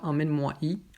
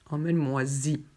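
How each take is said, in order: First: No z sound links moi to y. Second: A z sound links moi to y. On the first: The speaker calls it wrong. "on ne dit pas" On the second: The speaker calls it right. "ensuite zi pour ici"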